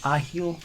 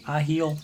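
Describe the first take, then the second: First: Rising, unsure question on Ahil; questioning the name. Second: Said in the usual way. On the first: Real, not acted. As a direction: try out Ahil as a puzzled question. Reading out a new animal's name.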